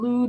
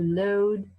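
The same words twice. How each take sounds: First: The vowel is the older one, unlike modern 'loud'. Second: The vowel has shifted partway toward modern 'loud'. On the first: This is the earlier pronunciation. "from loud" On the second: This is the later pronunciation. "It's not quite loud yet, but it's starting to move in that direction"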